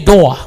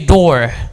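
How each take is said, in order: First: It is said in a New York accent. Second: It is said in a general American accent. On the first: "like a, a person from New York" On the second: "If you want to pronounce it like the Americans"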